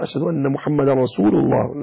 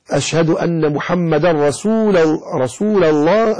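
First: رسول ending in "-lu", as "rasulullah"; lam with damma. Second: رسول ending in "-la", as "rasulallah"; slow call with an a after the l of رسول; lam with fatha. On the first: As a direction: say رسول الله correctly as "rasulu-llah". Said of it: "ليس رسول الله". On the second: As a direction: say رسول الله wrongly as "rasula-llah". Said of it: "ومن فتح اللام من رسول الله". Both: Shown as a demonstration.

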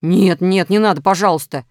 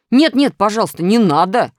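First: Loud, scared begging; frightened. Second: Loud whining begging; wailing plea. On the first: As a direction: beg in a fright. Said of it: "испугался Минус". (испуганная мольба) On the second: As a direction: wail for mercy. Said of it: "запричитал Минус". (жалобное причитание) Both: A narrator's reading.

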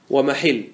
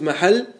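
First: ومحل said "wa-mahill", with an i; kasra form. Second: محل said "mahall", with an a; fatha form. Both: Shown as a demonstration. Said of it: "يجوز فيه الوجهان".

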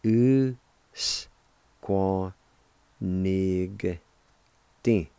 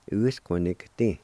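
First: U-s-qua-nig-ting said very slowly, syllable by syllable; teacher spelling out each syllable of U-s-qua-nig-ting; slow syllable demo. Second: Said in the usual way. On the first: Shown as a demonstration. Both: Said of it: "like this".

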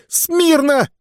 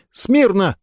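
First: Very high, strained yelled order; full shout. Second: High thin squeak of an order; squeaky command. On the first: Sergeant's third try at the command, a strained high yell. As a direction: yell it with everything you have. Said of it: "Не так!". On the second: Skinny sergeant squeaks the command to the cadets. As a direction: squeak it out, no authority. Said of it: "пискнул парнишка". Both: Acted.

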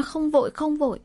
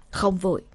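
First: "không vội, không vội" quoted much higher, in mocking disbelief; indignant mocking echo. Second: Casual offhand shrug of "Không vội"; "Không vội" tossed off lightly, in no hurry; light, unhurried. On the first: Narrator mocks the shaman's reply, much higher and indignant. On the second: Shaman answers the desperate family lightly, unhurried. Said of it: "câu nói nhẹ tênh của thầy chứ". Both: A narrator's reading.

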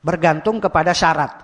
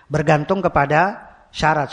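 First: Said in the usual way. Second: "Bergantung kepada syarat" spelled out slowly, leaning on "kepada"; slow, deliberate repeat. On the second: Shown as a demonstration. Preacher repeating the rule to his congregation, slow and deliberate. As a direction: repeat it slowly so the students catch it.

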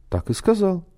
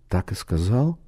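First: "Так и сказал" pitched high, then falling to a close; "Так и сказал" as a high-voiced answer that drops on "сказал"; firm confirmation. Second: "Так и сказал?" with a rising, questioning end; "Так и сказал?" softly, rising on "сказал"; questioning echo. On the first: Speaker confirms what was reported. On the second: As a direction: ask "Так и сказал?" as a doubting check, lifting the last word. Listener questions what was reported. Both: A narrator's reading.

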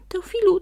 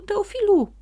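First: High, loud call of a name; calling from afar. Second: Loud, high repeated call; calling louder. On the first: Sprite runs up calling the donkey, loud high call. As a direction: shout his name across the forest. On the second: Sprite keeps calling the donkey from far off, loud and high. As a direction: call out again, urgent. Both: A narrator's reading. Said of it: "wołał już z daleka".

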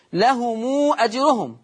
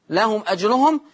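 First: لهم read as لهمو with the final mim joined to a drawn-out u vowel, slowly; mim linked and lengthened. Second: Said in the usual way. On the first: Shown as a demonstration. Sheikh showing students how to link the mim, drawn out slowly. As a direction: stretch the u after the mim in لهم before أجرهم. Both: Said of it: "يبقى ساعتها الصلة مع الإشباع".

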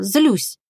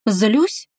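First: Said in the usual way. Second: Drowsy rising "Злюсь?", tongue heavy and slack; slurred, barely moving tongue. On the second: Acted. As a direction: mumble "Злюсь?" half asleep, slurring. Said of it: "еле ворочая языком".

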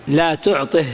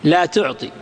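First: "لا تعطه" ending on breathed h; ha of silence. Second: Said in the usual way. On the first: Shown as a demonstration. Teacher showing the negative command paused, final h. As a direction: close "لا تعطه" with an audible -ih. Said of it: "هنا تقف بها". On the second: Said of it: "تقف بالهاء".

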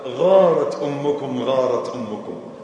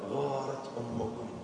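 First: "غارت أمكم" slow, loud, each word weighted; "غارت" stretched and falling; slow emphasis. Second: "غارت أمكم" soft and slow, lowered; "غارت" hushed and stretched; gentle excuse. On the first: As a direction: lean on "غارت" and let it fall. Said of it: "ثم نظر إلى الصحابة وقال". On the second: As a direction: say it softly, forgiving her. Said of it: "ثم التمس لها عذرا". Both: Acted.

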